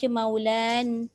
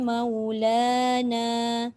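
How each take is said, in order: First: The word ends abruptly without the final vowel. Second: The word ends with a long a vowel. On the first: The speaker calls it wrong. "jangan pula kita baca maulan, hilang alif" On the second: The speaker calls it right. "tidak ada perubahan"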